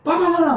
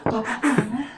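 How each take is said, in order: First: It is said with harsh, angry pressure. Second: It is said in a light, friendly way.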